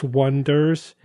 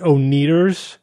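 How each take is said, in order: First: The name begins with a w sound. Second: The name begins with an o sound. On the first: "They spelled their band O-N-E-D-E-R-S, Wonders" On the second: "but everyone pronounced it O-Needers"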